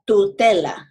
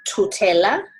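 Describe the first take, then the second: First: The t is soft, like in stand. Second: The t is hard, with a puff of air. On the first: The speaker calls it right. "as if you would say stand" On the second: The speaker calls it wrong. "Instead of saying tutela"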